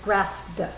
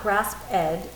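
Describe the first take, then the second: First: The ending is a single final consonant. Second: The ending is an extra separate syllable. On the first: The speaker calls it right. "It's grasped. You hear the duh" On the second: The speaker calls it wrong. "It's not grasped ed"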